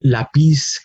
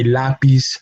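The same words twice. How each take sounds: First: Lápiz mis-stressed on its final syllable, la-PIZ; stress on last syllable. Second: Lápiz with the weight up front, LÁ-piz; stress on first syllable. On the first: Teacher shows what not to say, lápiz stressed as la-PIZ. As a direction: say lápiz as la-PIZ, weight at the end. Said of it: "We do not say lápiz". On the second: Teacher shows what we say, lápiz stressed as LÁ-piz. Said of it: "on the second to last syllable". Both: Shown as a demonstration.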